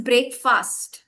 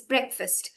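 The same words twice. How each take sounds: First: "breakfast" drawn out as BREAK-FAST; slow, fully voiced "breakfast"; full-syllable BREAKFAST. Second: "breakfast" with a short, reduced second syllable; quick unstressed ending on "breakfast"; correct BREAKFAST. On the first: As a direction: say both words whole in breakfast, break and fast. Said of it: "We pronounce the whole thing". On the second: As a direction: say breakfast as BREK-fust. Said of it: "but we pronounce it as breakfast". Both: Shown as a demonstration.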